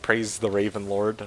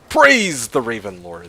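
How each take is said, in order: First: It is said flatly, without much emphasis. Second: It is said with strong, energetic emphasis.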